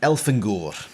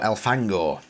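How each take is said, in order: First: "Elfangor" with stress moved to the last syllable, "-gur"; audiobook pronunciation. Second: "Elfangor" with stress on the first syllable, ending in a short "o"; own pronunciation. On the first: Retold or imitated. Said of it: "How do the audiobooks pronounce Elfangor?". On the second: Shown as a demonstration. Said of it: "How do I pronounce Elfangor?".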